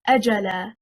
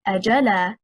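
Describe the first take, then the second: First: The stress is on the first syllable. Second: The stress is on the second syllable. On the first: It is a single word meaning a term. The speaker calls it right. "The correct stress is on the first حركة, حركة الهمزة" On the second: It becomes a question particle plus the verb appeared. The speaker calls it wrong. "stressing on the second حركة, حركة الجيم"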